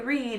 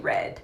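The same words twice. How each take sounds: First: It is pronounced as the present tense form. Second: It is pronounced as the past tense form. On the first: It is the form a child wrongly uses for the past. The speaker calls it wrong. "they say read" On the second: It is the correct form for the past tense. The speaker calls it right. "past tense, you have to say read"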